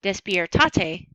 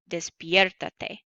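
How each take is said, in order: First: Despiertate stressed late, as des-pier-TA-te. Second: Despiértate stressed early, as des-PIER-ta-te. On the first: Teacher showing the unaccented word, despiertate stressed on TA. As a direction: lean on the TA in despiertate. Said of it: "does not sound like despierta". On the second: Teacher showing what the accent mark does, despiértate stressed on PIER. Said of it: "So I add the accent". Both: Shown as a demonstration.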